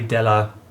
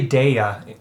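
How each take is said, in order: First: The double L sounds like an l. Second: The double L sounds like a y. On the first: The speaker calls it right. "It's probably Della" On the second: The speaker calls it wrong. "I want to say Dea, because it's double L, but that's probably not Dea"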